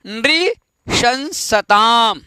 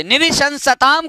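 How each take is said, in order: First: नृशंसताम broken slowly into नृ, शं, सताम; careful pronunciation. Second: Said in the usual way. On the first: Shown as a demonstration. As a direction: model नृशंसताम piece by piece, with pauses. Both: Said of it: "एक बार उच्चारण कर लेंगे".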